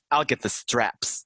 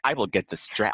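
First: 'I will' is contracted to 'I'll'. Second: 'I will' is said as two full words. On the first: The speaker calls it wrong. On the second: The speaker calls it right.

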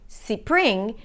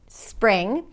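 First: The word is said as two syllables with a vowel before the s. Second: The word is said as one syllable with no vowel before the s. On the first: The speaker calls it wrong. "and they hear two" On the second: The speaker calls it right. "if people expect to hear one syllable"

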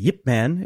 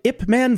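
First: The name begins with a 'y' sound. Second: The name begins with a plain vowel sound. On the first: The speaker calls it right. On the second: The speaker calls it wrong.

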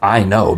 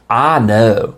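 First: It is said in a plain accent. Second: It has a fake Tennessee accent, flattened vowel.

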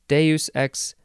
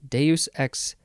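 Both takes have the same delivery.

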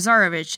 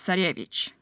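First: It is pronounced the English way. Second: It is pronounced the Russian way. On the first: "for Tsarevich" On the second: "to give you the Russian pronunciation"

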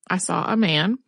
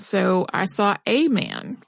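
First: The word 'a' is said as a short 'uh'. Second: The word 'a' is said as a long 'ay'. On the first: "pronounce the word A with the short rather than the long sound, the way that you would in a conversation" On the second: "teach them to use a long A sound"

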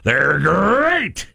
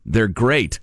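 First: It is said in a cool tiger voice. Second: It is said in a plain, ordinary voice.

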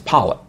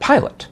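First: The first vowel is flattened, without a glide. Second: The first vowel is a full gliding I sound. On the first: "they take the I sound and they flatten it" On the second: "as a northerner, as a Yankee, I would call it pilot"

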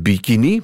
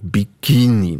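First: The stress falls on the first syllable. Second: The stress falls on the second syllable. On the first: This is how we say it here. "wij zeggen bikini" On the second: This is how others say it. "maar je hebt ook bikini. De voorlaatste"

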